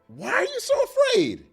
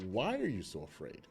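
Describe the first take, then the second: First: The question sounds harsh and accusing. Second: The question sounds gentle and reflective. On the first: The listener is being scolded for being foolish. "The why are you so afraid is accusatory" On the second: The listener is invited to reflect on their fear. "Making me think"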